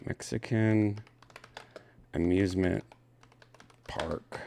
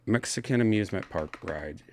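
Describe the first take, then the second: First: Mexican amusement park read out one word at a time; slow word by word. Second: Said in the usual way. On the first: Shown as a demonstration. Rereading the headline, slow and separate. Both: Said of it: "I just shouldn't say Mexican".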